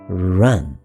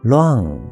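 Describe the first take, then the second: First: It begins with a curled r sound. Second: It begins with an l-like sound, like luan. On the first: The speaker calls it right. "前面加一个卷舌头的r，所以加起来就是run。" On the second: The speaker calls it wrong. "有些台湾人会把它念成run。"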